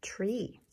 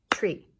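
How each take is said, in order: First: "Tree" whispered with a rising tune; whispered word. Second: "Tree" said out loud on one beat; clapped syllable. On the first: Teacher whispers the next picture word to the class. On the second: Teacher claps the single syllable for the class, loud. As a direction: clap "Tree" once, loud. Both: Shown as a demonstration.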